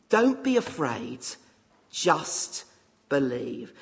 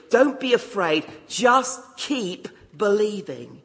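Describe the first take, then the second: First: Said in the usual way. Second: "Don't be afraid, just keep believing" plus fort, appuyé; plain. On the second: Shown as a demonstration.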